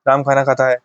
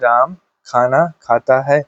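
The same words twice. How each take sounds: First: The words are run together quickly without pauses. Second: The words are spoken slowly with pauses between them. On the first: "जोड़ के बोल दे ... तुरंत हम बोल दे" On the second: "धीमे धीमे बोले ... वियोग कर करके हमने बोला"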